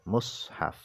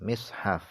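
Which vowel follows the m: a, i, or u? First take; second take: u; i. First: The m is followed by a u vowel. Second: The m is followed by an i vowel. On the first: "dibaca dhammah mimnya" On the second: "dibaca kasrah mimnya"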